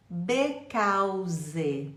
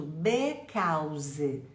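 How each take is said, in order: First: "because" read as "be-cau-ze"; spelling pronunciation. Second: "because" read letter by letter as "u-be-cau-ze"; spelling pronunciation. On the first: Teacher demonstrating a pronunciation error. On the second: Teacher showing a misread word. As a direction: say it as spelled, wrongly. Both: Shown as a demonstration. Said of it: "vou ler do jeito que tá escrito".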